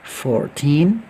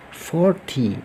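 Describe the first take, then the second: First: Put-on "Fourteen" very slow and loud, rising on "teen"; "Fourteen" stretched, lifting to "teen". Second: "forty" slow, stress on "for", falling on "ty"; "forty" drawn out and dropping at the end. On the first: Teacher recaps the rule: slow rising "Fourteen". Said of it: "Fourteen naik". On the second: Teacher recaps the rule: slow falling "forty". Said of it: "forty turun". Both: Shown as a demonstration.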